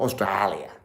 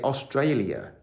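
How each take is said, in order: First: It is said in an Australian accent. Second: It is said in an English accent. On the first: The speaker calls it wrong. "not Australia" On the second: The speaker calls it right. "In England, we say Australia"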